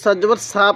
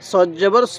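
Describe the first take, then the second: First: The vowel is a thin open a. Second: The vowel is a heavy rounded o. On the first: The speaker calls it wrong. "অনেকে সদ জবর সা পড়ি না এরকম ভাবে পড়বো না" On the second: The speaker calls it right. "তাহলে সদ জবর স"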